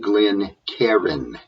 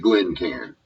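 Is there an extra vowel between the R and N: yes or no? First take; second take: yes; no. First: An extra vowel sound comes between R and N. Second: No vowel sound comes between R and N. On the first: The speaker calls it wrong. "This is not a Glencairn" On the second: The speaker calls it right. "There is nothing between the R and the N"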